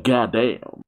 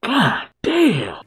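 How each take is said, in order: First: Said in the usual way. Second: GODDAMN pushed up high; emphatic exclamation. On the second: Real, not acted. Viewer wowed by a sexy character, high emphatic "goddamn".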